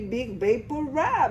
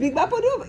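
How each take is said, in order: First: It is said with an English-sounding accent. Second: It is said with a Colombian Spanish accent. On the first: It mocks the name by making it sound foreign. "trying to make it sound English" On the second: This is how people in Colombia say it. "If you talk to any Colombian, it's called Big Vaporub"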